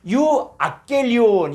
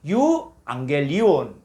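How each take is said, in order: First: The first gamma sounds like a hard g. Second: The first gamma sounds like ng. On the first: The speaker calls it wrong. "이렇게 읽을 수밖에 없는데" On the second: The speaker calls it right. "요걸 이응 처리해서"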